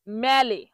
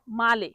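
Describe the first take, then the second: First: ম্যালে with a flattened "mae" vowel; mispronounced Italian. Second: মালে with an open "aa" first vowel; correct pronunciation. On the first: Teacher showing what many wrongly say, mispronounced. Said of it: "ভুল বলে তখন কি বলে". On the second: Teacher correcting the common mistake, correctly pronounced. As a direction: say মালে as MAA-le, not MAE-le. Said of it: "এটা সঠিক উচ্চারণ হবে". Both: Shown as a demonstration.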